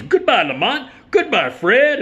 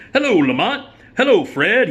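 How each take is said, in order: First: Very high, loud hasty goodbye as Melvin; Melvin farewell. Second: High, loud cheery greeting as Melvin. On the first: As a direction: bail out with a shrill rushed goodbye. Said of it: "turns right around and goes". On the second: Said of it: "he goes". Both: Retold or imitated.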